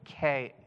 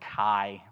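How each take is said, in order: First: The word ends in an 'eh' vowel. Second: The word ends in an 'eye' vowel. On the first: The speaker calls it right. "ke is and in Greek" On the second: The speaker calls it wrong. "for those of you who pronounce it that horrible way"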